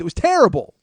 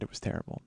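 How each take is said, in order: First: High, very loud comic outburst; exasperated shout. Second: Low, soft deadpan repeat; subdued admission. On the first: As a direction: yell it as the rant's climax. Peak of the acted rant. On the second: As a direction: drop it quietly, calmed right down. Calmed repeat after the rant. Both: Retold or imitated.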